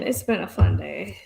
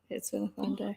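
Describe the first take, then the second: First: It is said sarcastically. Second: It is said sincerely.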